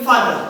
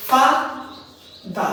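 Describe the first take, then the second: First: Said in the usual way. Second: "ফা, দা" as two separate beats; long pause between "ফা" and "দা"; split into syllables. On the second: Shown as a demonstration. Teacher showing students two syllables, split apart. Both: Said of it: "দুটো syllable আছে".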